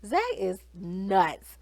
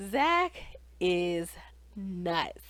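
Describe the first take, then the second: First: Said in the usual way. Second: Zach, pause, is, pause, nuts, each word alone; dramatic pauses. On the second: Real, not acted. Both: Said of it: "I know I say everybody's crazy".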